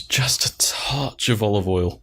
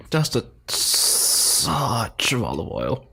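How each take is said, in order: First: Slow mock-sommelier whisper. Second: Very slow, savoring snob voice; connoisseur voice. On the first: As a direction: breathe it like a wine snob. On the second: Pretend. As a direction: drawl it like a food critic.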